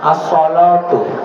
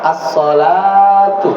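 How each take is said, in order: First: The vowel after the L is a rounded 'o'. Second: The vowel after the L is a plain 'a'. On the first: This is another reading of the text. "Karena ada yang baca as-sholatu" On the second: This is the usual reading. "harusnya pakai fathah, as-sholatu seperti itu"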